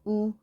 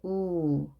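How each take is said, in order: First: The vowel is held only briefly. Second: The vowel is held a little longer. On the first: "짧게" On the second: "조금 길게"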